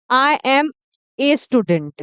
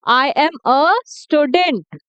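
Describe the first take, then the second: First: "a" said as a long 'ay' in "a student"; wrong article sound. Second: "a" said as 'uh' in "a student", slowly; correct article sound. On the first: Teacher shows what many friends say, wrong article sound. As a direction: give the article "a" its letter name, 'ay'. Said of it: "ए बोलते हैं इसको". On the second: Teacher corrects her friends' habit, correct article sound. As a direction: say the article "a" as a neutral 'uh', word by word. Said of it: "अ का sound आ रहा है". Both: Shown as a demonstration.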